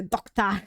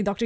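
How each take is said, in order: First: "doctor" ending in an open "ah", no R; Cockney pronunciation. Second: Said in the usual way. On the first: Shown as a demonstration. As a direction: say "doctor" as dok-tah. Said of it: "you say doctor". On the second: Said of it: "You don't say doctor".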